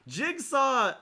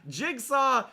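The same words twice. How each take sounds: No difference in how they are said.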